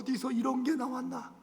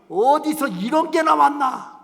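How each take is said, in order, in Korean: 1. 한숨 쉬듯 답답해하는 말투로 말합니다. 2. 따뜻하고 감탄하는 말투로 말합니다. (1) "이거하고 똑같은 말이 어휴" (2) "말도 억양에 따라 다르면"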